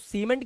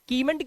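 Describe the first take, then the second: First: The word begins with an s sound. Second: The word begins with a k sound. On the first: The speaker calls it right. "इसको सीमेंट क्यों बोलते हैं" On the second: The speaker calls it wrong. "इसे कीमेंट क्यों नहीं बोल देते"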